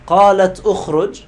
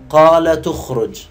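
First: قالت أخرج as two words, closed t, then glottal stop; full hamza. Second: Loud, slow linking with the t carrying the u; dropped hamza. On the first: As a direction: separate قالت from أخرج, loudly. (قالت أخرج بتحقيق الهمزة) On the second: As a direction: run قال تخرج together slowly as qalatukhruj. (قالتُ اخرج بالنقل وحذف الهمزة) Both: Shown as a demonstration. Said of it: "هذا قراءة ورش نسميه نقل".

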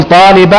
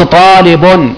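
First: "طالبا" with an audible -an ending; accusative ending. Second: Slow "طالب", ending on -un; "طالب" stretched, with tanween damma; nominative ending. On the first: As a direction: end "طالبا" clearly on -an. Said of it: "لما تقول طالبا يبقى مستثنى منصوب". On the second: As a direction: pronounce "طالب" as taalibun, drawn out. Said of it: "لو قلت طالب يبقى بدل". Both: Shown as a demonstration.

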